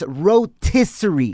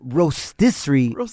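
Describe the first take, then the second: First: No S sound comes before the T. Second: An S sound comes before the T. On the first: The speaker calls it right. "It's rotisserie chicken" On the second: The speaker calls it wrong. "there's no S in there"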